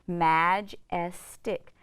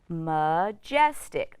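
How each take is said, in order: First: The first vowel is a short 'a' sound. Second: The first vowel is a weak 'uh' sound. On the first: "my A is now going to make a short vowel sound" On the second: "is going to say uh. It's an unstressed syllable"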